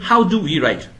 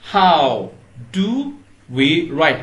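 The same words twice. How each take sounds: First: It is said quickly. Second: It is said at a normal pace.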